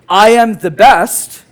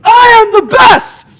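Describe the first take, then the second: First: It is said flatly, without energy. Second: It is said with strong conviction.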